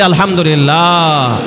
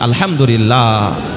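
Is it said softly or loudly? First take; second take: loudly; softly. First: It is said louder than before. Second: It is said at a normal, softer volume.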